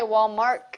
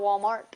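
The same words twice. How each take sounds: First: It is said with a K sound inside. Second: It is said without any K sound. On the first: The speaker calls it wrong. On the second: The speaker calls it right.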